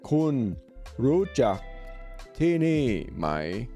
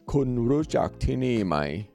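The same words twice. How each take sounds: First: The phrase is said slowly and carefully. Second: The phrase is said at normal conversational speed.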